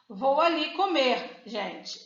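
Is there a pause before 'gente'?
yes. There is a pause before gente.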